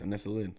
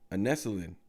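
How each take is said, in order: First: The name is said quickly, run together. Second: The name is said at a slower pace.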